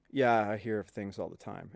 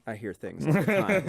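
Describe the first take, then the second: First: Low, hushed, loaded admission; knowing, ominous understatement. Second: Lightly put-on casual admission; offhand mock version. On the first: Retold or imitated. Maintenance man hinting at ghosts, low and quiet. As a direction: drop pitch and volume as if hinting at something eerie. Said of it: "the face he made was like". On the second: Showing how the maintenance man did not say it, offhand. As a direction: say it openly, with no eerie hint. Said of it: "It wasn't like".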